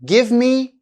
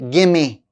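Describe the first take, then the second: First: Both words are said fully and separately. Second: The words are blended into a reduced form.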